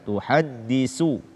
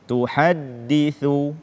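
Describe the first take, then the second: First: The last consonant is a plain 's' sound. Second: The last consonant is a voiceless 'th' sound. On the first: The speaker calls it wrong. "menggantinya dengan sin" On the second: The speaker calls it right. "membaca tha dengan tepat"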